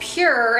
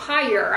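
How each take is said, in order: First: The name rhymes with 'cure'. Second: The name rhymes with 'fire'. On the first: The speaker calls it right. "this is called Pure" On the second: The speaker calls it wrong. "and not Pyre. I've been saying it wrong all along"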